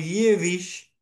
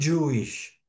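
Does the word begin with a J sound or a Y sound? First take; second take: Y sound; J sound. First: The word begins with a Y sound. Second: The word begins with a J sound. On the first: This is how Russian-speaking immigrants read it. "era leída por los inmigrantes de Europa Oriental, generalmente de idioma ruso, como" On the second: This is the English pronunciation. "y no"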